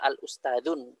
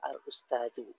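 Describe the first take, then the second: First: The word ends with an added n sound. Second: The word ends on a vowel, no n sound. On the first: The speaker calls it wrong. "Nggak bisa" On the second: The speaker calls it right.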